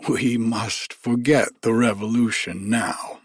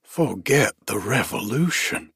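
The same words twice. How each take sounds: First: Said in the usual way. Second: Mildly indignant, rising echo; almost angry. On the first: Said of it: "This from Missus Bouchon". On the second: A narrator's reading. Old soldier answering Missus Bouchon's remark, almost angrily. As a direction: throw it back as an affronted question, restrained. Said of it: "almost angrily".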